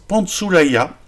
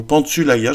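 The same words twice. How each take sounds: First: Pantsoulaya with an "oo" sound in the middle; prononciation en « ou ». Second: Pantsoulaya with French "u" instead of "oo"; alternative pronunciation. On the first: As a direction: say Pantsoulaya as pant-soo-la-ya. (Pantsoulaya prononcé avec le son « ou ») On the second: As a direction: say Pantsoulaya as pant-sü-la-ya, lips rounded for the ü. (Pantsoulaya prononcé « Pantsulaya », avec un u français) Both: Shown as a demonstration. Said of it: "je sais pas comment ça se prononce".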